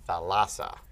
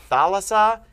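First: "thalassa" stressed on the middle LA; stress on second syllable. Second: "thalassa" stressed on the opening THA; stress on first syllable. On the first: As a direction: demonstrate "thalassa" as tha-LA-sa, accent shifted inward. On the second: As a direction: demonstrate "thalassa" as THA-la-sa, accent at the front. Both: Shown as a demonstration. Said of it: "look at the accent".

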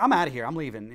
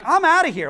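First: Said in the usual way. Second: Loud, high mock outburst; mock storm-off. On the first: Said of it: "That's literally what he said". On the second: Man fed up with an exorcism at home, loud mock outburst. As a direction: bark the exit line up high and loud.

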